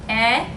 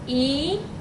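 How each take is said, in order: First: The vowel is short, as in bet. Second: The vowel is long, as in beat. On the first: "we're going to start with the short E" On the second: "Now we're going to practice writing the long E"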